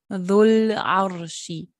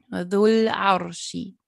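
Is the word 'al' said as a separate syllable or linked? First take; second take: linked; linked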